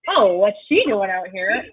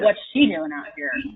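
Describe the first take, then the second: First: It sounds condescending, doubting her competence. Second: It sounds suspicious, doubting her intentions.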